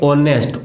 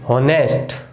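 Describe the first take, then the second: First: The word begins directly with a vowel. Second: The word begins with an h sound. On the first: The speaker calls it right. "इसको बोलेंगे ऑनेस्ट" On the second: The speaker calls it wrong. "एच ऐसे थोड़ी ना बोलेंगे"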